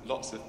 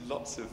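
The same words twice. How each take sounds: The two takes are said the same way.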